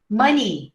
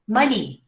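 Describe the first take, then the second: No difference in how they are said.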